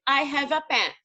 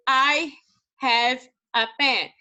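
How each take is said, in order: First: Said in the usual way. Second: Slow spelled-out read. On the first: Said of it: "eu botei aqui o exemplo". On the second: Shown as a demonstration. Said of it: "Aí eu coloquei aqui".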